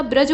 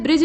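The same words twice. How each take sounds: First: ब्रज with a short a; correct vowel. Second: ब्रिज with a short i; wrong vowel. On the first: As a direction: say ब्रज as braj. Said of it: "ब्रज होता है". (सही ब्रज, अ के साथ) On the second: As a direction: say ब्रिज as brij. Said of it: "ब्रिज नहीं होता". (गलत ब्रिज, इ की मात्रा के साथ) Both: Shown as a demonstration.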